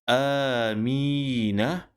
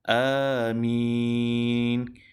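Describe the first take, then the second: First: The word ends on a final vowel. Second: The word ends on a final consonant. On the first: "Sebagai contoh di sini" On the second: "Apabila kita wakaf pada kalimah ini, maka bunyinya ataupun sebutannya akan jadi amin"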